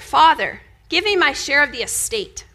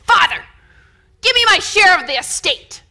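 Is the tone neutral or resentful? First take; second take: neutral; resentful. First: It is read in a plain, neutral tone. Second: It is said in an unhappy, demanding tone.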